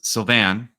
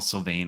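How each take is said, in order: First: The name is said with a French pronunciation. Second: The name is said with an English pronunciation. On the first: The speaker calls it right. "I think is a French pronunciation" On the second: The speaker calls it wrong. "which is awful and it's mortifying"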